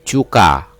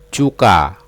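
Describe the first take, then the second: Both takes have the same delivery.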